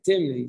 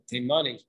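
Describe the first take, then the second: First: The name has two syllables, with no middle vowel. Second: The name has three syllables, with a middle vowel. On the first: The speaker calls it right. "it's really in the Masifta Shas they vocalized it as Timni" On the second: The speaker calls it wrong. "sometimes people pronounce it Timani"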